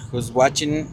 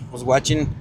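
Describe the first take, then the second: No difference in how they are said.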